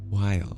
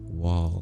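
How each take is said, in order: First: The vowel sounds like 'eye', as in while. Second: The vowel sounds like 'aw', as in wall. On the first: The speaker calls it right. "I don't think I pronounced the word while properly" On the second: The speaker calls it wrong. "I think I've been saying wall. Like almost like a W A L L"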